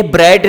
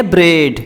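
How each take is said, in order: First: ब्रेड said like English bread, open e as in bed; bread, not braid. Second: ब्रेड said like braid, long closed e as in day; braid pronunciation. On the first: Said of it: "ये ब्रेड नहीं है". (ब्रेड को bread की तरह, खुली छोटी 'ए' के साथ) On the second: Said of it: "बल्कि यह है ब्रेड". (ब्रेड को braid की तरह, लंबी 'ए' के साथ) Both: Shown as a demonstration.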